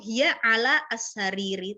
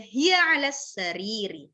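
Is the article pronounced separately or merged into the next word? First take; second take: separate; merged. First: The article is pronounced fully and separately. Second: The article is merged straight into the next word. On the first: The speaker calls it wrong. "nggak perlu ... terlalu berat" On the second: The speaker calls it right. "digabung aja"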